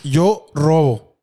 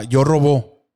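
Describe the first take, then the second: First: "robo" stressed on the first syllable, slow; acento en RO. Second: "robó" stressed on the last syllable; acento en BÓ. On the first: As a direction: say "robo" slowly as RO-bo. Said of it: "Ah, sí dices". ("robo" lento, con la fuerza en la primera sílaba) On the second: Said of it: "sí dices". ("robó" con la fuerza en la última sílaba) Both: Shown as a demonstration.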